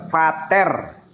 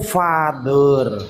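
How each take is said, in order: First: The middle consonant is a plain t sound. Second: The middle consonant is a th sound. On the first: The word is read as it is spelled. "F A T H E R, fater" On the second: The word follows its original language's pronunciation. "dalam pelafasan bahasa Inggris yang benar itu father"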